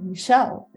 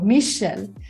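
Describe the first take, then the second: First: The stress is on the second syllable. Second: The stress is on the first syllable. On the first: This is how others say the name abroad. "It's always on the second syllable" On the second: This is how the name is said at home. "I pronounce my name with an accent on the first syllable"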